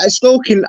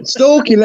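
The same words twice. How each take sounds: First: Said in the usual way. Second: Higher, incredulous repeat of the word; "Stalking" echoed high in mock outrage; indignant echo. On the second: Real, not acted. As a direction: throw "Stalking" back in disbelief. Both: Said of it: "onto bloody stalking".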